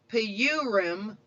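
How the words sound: It is pronounced the way English speakers say it. "as English speakers are sometimes wont to do, is a surefire newbie cover blower"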